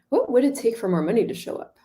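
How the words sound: It is asked with genuine curiosity.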